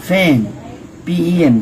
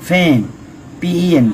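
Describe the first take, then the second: Both takes have the same delivery.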